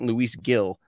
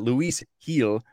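First: Gil begins with a hard G sound. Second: Gil begins with an H sound. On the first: The speaker calls it wrong. "It's not Luis Gil, like Tony" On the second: The speaker calls it right. "That's so usually like an H sound"

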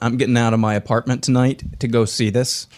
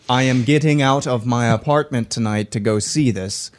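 First: It is said at normal speed. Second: It is said slowly.

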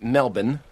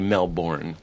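First: The last syllable is reduced and unstressed. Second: The last syllable is a full 'bourne'. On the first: The speaker calls it right. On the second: The speaker calls it wrong.

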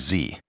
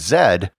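First: The letter is said the American way, zee. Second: The letter is said the Canadian way, zed.

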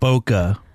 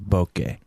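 First: The word does not rhyme with sake. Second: The word rhymes with sake. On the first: The speaker calls it wrong. "People pronounce it bokeh" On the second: The speaker calls it right. "But it should be pronounced bokeh"

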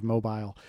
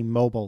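First: It is said in a British accent. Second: It is said in an American accent. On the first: "instead of mobile" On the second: "when you say something in a very American way"

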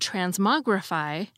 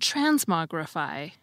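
First: It begins with a plain t sound. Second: It begins with a ch-like sound. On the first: "Instead of saying" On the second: "I'm saying"

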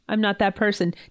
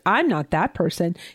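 First: It sounds defensive, as if protecting oneself. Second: It sounds judgmental, as if looking down on someone. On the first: The speaker is defending themselves. "Defensive, defending yourself" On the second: The speaker is judging someone else. "Judgment of the thing that you're looking at"

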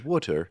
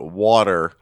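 First: It is said in a British accent. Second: It is said in an American accent.

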